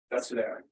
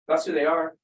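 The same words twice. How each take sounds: First: Said in the usual way. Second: Louder, firm "That's who they are"; emphatic point. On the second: Real, not acted. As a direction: drive home "That's who they are" with more force. Emphatic statement, then repeated softly.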